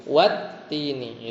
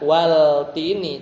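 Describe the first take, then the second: First: Wat-tini with the L assimilated, doubled t; wat-tini, L merged into a doubled t; right reading. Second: Wal-tini with the L sounded; wal-tini said with a clear L before t; wrong reading. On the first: Teacher showing pupils the correct reading, wat-tini. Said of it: "tapi wat-tini". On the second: Teacher showing pupils the wrong reading, wal-tini. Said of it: "Bukan wal-tini". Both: Shown as a demonstration.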